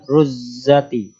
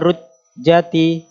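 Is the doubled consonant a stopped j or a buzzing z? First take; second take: buzzing z; stopped j. First: The doubled consonant is a buzzing z sound. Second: The doubled consonant is a stopped j sound. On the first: The speaker calls it wrong. "bukan ruzzati" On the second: The speaker calls it right. "Idza rujjati"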